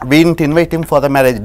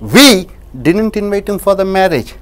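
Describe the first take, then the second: First: The word 'didn't' carries the stress. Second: The word 'we' carries the stress. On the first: The claim that we invited him is untrue. "didn't அழுத்தம் கொடுக்கும்போது" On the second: Someone else invited him. "யாரோ ஒருத்தர் அழைத்தார்"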